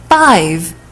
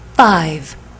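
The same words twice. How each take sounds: First: The pitch rises at the end of the word. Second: The pitch falls at the end of the word.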